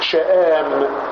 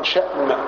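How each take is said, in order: First: A glottal stop follows, then a long a. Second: A glottal stop follows, with a short vowel. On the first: "شآم بالمد، بالهمز والمد" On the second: "شأم بالهمزة"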